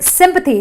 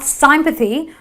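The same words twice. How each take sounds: First: The first vowel is a short i sound. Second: The first vowel is not a short i. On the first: The speaker calls it right. "So it is sympathy" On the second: The speaker calls it wrong. "not sympathy or anything else"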